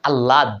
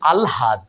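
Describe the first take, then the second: First: The l is doubled and no h is heard. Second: An l is followed by an h sound. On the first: The speaker calls it wrong. "লটাকে double double করে পড়ি, কিন্তু হয়ের উচ্চারণ করি না" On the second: The speaker calls it right. "আগে ল পরে হ"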